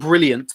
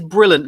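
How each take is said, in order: First: It is said with a 'y' sound after 'l'. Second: It is said without a 'y' sound after 'l'. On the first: The speaker calls it wrong. "not Brilliant" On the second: The speaker calls it right. "It is Brilliant, There's no I"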